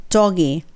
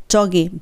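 Both takes have the same delivery.

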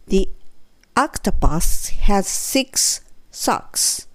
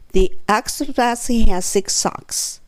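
First: The sentence is spoken slowly. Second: The sentence is spoken a little faster. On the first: "ゆっくり" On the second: "3 回目は、ちょっとだけ早め"

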